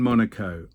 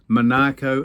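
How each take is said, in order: First: Monaco said as "MON-uh-ko"; "Monaco" with a light, short middle; stress on first syllable. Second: Monaco said as "muh-NAH-ko"; "Monaco" with a long stressed NAH; stress on second syllable. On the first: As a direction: hit the opening syllable of Monaco. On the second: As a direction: hit the middle syllable of Monaco. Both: Shown as a demonstration. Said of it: "what emphasis you have on the correct syllable".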